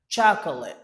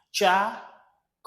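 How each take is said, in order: First: Said in the usual way. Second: "Chocolate" broken into cha, co, late with clear gaps; "Chocolate" split up for learners to repeat; syllable by syllable. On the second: Shown as a demonstration. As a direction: model "Chocolate" slowly in three separate syllables. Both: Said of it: "Repeat after me".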